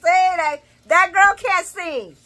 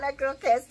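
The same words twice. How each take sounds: First: Saying it out loud. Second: Said in the usual way. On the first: Shown as a demonstration. Vlogger repeating her verdict on [name], loud and slow. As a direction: belt the verdict out on purpose. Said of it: "I said it". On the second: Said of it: "I'm not gonna say nothing out loud".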